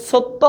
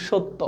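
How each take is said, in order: First: সত্য said as "sotto"; "s" pronunciation. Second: সত্য said as "shotto"; "sh" pronunciation. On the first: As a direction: start সত্য with a hissing "s", not "sh". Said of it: "এখন তুমি কি বলো". (সত্য-র শুরুতে দন্ত্য "স" (s) ধ্বনি) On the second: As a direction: start সত্য with a hushing "sh". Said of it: "আমরা স এর মতো উচ্চারণ করি". (সত্য-র শুরুতে তালব্য "শ" (sh) ধ্বনি) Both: Shown as a demonstration.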